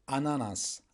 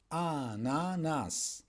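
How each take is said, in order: First: Said in the usual way. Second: "ananas" slowly drawn out, a, na, nas; syllable by syllable. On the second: Shown as a demonstration. Teacher answering pineapple in Turkish, "ananas" syllable by syllable. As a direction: stretch each syllable of "ananas".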